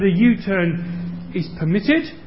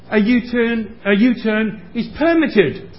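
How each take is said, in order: First: The stress is on the second syllable of permitted. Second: The stress is on the first syllable of permitted. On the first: Doing a U-turn here is allowed. "which means you are allowed to do a U-turn there" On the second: A permit has been issued for the U-turn. "which means a permit has been issued to allow you to get permission to do the U-turn"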